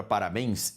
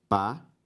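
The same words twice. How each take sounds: First: Said in the usual way. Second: Long pauses between the syllables of "Parabéns". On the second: Shown as a demonstration. Teacher separating the word for students, syllable by syllable. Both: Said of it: "Se eu separo a palavra".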